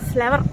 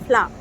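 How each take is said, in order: First: The final r sound is clearly pronounced. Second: The final r sound is dropped. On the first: The speaker calls it wrong. "ఫ్లవర్ అనకూడదు" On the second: The speaker calls it right. "ఆ ఆర్ తినేయాల"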